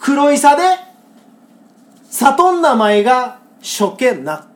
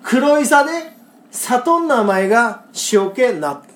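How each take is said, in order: First: Slow, deliberate Kagoshima dialect reading of the senryu; Kagoshima dialect recital. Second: Again slow Kagoshima dialect, steady and clear; Kagoshima dialect recital. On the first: Host reciting a Kagoshima senryu to co-host, slow Kagoshima dialect. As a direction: savour each Kagoshima word slowly. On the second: Host repeating the Kagoshima senryu for co-host, slow Kagoshima dialect. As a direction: read the Kagoshima line slowly once more. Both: Shown as a demonstration.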